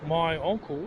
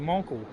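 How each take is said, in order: First: Both words are said separately and in full. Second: The two words merge into one short word. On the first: "instead of saying my uncle" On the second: "we say monkle"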